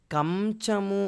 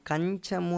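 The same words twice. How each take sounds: First: Slow కంచము with an m before ch, "kam-chamu"; "kam-chamu", lips closing on the nasal in కంచము; wrong "m" sound. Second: "kañ-chamu", tongue on the palate for the nasal in కంచము; correct palatal nasal. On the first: Teacher showing students how not to say it, కంచము as "kam-chamu". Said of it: "అని పలకం". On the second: Teacher correcting herself to the proper form, కంచము as "kañ-chamu". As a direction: say కంచము with an ny before ch, "kany-chamu". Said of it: "పలుకుతాము". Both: Shown as a demonstration.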